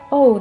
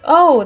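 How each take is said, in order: First: The 'oh' sounds disappointed and downcast. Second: The 'oh' sounds pleased and upbeat. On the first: Something bad has happened. "It depends on the intonation" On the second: Something good has happened. "you can use O in both positive, negative"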